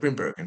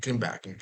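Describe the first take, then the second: First: The name is said with plain English sounds. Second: The name is said with native Dutch sounds. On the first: "for all of you scrubs" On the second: "that's the, the, the right way to say it"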